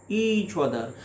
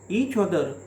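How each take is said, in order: Both takes have the same delivery.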